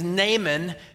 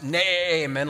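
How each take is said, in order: First: The name is said plainly without any bleat. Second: The name is drawn out in a goat-like bleat.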